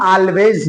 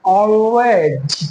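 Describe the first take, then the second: First: Always as "aal-vez" with a light L; wrong pronunciation. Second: Always drawn out as "aw-wez", L hidden; slow Always, rounded first vowel, falling at the end; dark L demo. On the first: Teacher shows what not to say, clear-L mispronunciation. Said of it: "always नहीं बोलेंगे". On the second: Teacher models it for learners, dark L demo. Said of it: "इसको हम अदा कैसे करेंगे". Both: Shown as a demonstration.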